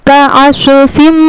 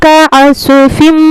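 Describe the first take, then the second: The two takes are said the same way.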